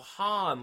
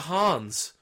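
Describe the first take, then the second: First: The name ends without any s sound. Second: The name ends with an added s sound. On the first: The name is given as it really is. The speaker calls it right. "there's no S at the end of it" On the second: The name is mistaken for a common real name. The speaker calls it wrong. "I'm purposely mispronouncing this"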